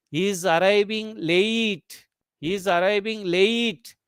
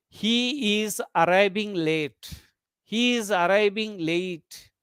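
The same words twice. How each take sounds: First: "late" with a rising tone, as a question. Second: "late" with a falling tone, as a statement; slow statement, the pitch falling on "late". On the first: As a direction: turn it into a question by lifting the pitch on "late". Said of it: "you use the late in a rising tone". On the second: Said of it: "before that you find a falling tone". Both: Shown as a demonstration.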